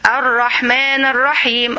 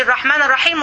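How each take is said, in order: First: "الرحمن الرحيم" drawn out slowly and savoured; slow reflective recitation. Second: Said in the usual way. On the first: Shown as a demonstration. Teacher showing students how to recite "الرحمن الرحيم" slowly. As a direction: stretch out "الرحمن الرحيم", then pause. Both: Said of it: "وتهدي شوية".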